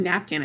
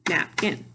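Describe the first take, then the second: First: Said in the usual way. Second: "napkin" in two beats, nap, kin; split into syllables. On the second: Shown as a demonstration. Teacher clapping syllables, "napkin" split in two. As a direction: clap out "napkin" with a break between nap and kin. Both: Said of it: "If I clap the syllables".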